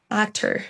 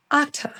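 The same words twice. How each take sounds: First: American accent. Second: British accent. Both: Shown as a demonstration. Drill alternates American and British.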